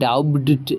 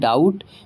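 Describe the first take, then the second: First: The b sound is pronounced before the t. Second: The b sound is silent before the t. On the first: The speaker calls it wrong. "डाउट नहीं पढ़ते हैं" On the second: The speaker calls it right. "बल्कि हम इसे पढ़ते हैं डाउट"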